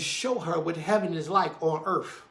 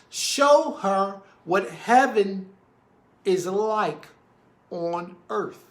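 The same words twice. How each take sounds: First: The phrase is spoken at a normal pace. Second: The phrase is spoken slowly and deliberately.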